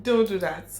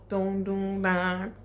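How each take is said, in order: First: Louder repeat of the warning, stress on Don't; firm loud warning. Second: Slow "Don't do that", Don't stretched; slow firm warning. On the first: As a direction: say "Don't do that" firmly. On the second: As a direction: draw out "Don't do that". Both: Real, not acted.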